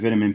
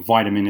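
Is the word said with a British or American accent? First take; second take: British; American. First: It is said with a British pronunciation. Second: It is said with an American pronunciation.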